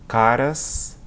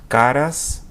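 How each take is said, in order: Both takes have the same delivery.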